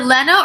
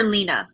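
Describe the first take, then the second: First: Lena with a short e, LEN-uh; first vowel of Lena as in "pen"; short-e pronunciation. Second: Lena with a long ee, LEE-nuh; first vowel of Lena as in "see"; long-e pronunciation. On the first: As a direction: say Lena to rhyme with henna. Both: Shown as a demonstration. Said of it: "Is it Lena or Lena?".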